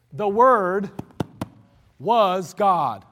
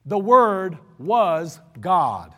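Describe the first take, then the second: First: "Word" set apart by a pause, then "was" hit hard; stress on was. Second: Slow, weighty stress on "Word", drawn out. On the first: Preacher repeating the verse, pausing then stressing "was". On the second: Preacher to congregation, slow and heavy on "Word". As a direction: lean hard on "Word" and let "was God" fall. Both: Real, not acted. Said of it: "Note that".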